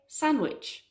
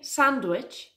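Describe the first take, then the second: First: No d sound is heard in the middle. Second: A d sound is heard in the middle. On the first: The speaker calls it right. "it's a sandwich. ... The D in sandwich is a silent letter" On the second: The speaker calls it wrong. "If you think it's a sandwich, you're wrong. It's not a sandwich"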